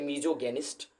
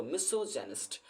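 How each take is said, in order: First: मिजोगेनिस्ट with a z sound and a hard g; मिजोगेनिस्ट mispronounced on purpose; wrong misogynist. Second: मिसोजेनिस्ट with an s sound and a soft j; मिसोजेनिस्ट said correctly and quietly; correct misogynist. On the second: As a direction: give the correct मिसोजेनिस्ट softly. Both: Shown as a demonstration. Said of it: "मिजोगेनिस्ट नहीं होता दोस्तों".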